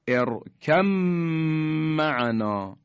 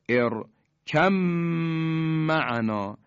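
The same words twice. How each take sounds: First: The b merges into the m and disappears. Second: The b merges into the m and disappears.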